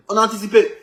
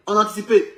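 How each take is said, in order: Both takes have the same delivery.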